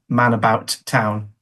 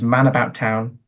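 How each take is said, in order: First: Two separate T sounds are heard. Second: Only one T sound is heard. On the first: "where we might have had" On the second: "only produces one T sound"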